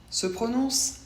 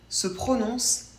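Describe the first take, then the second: The two takes are said the same way.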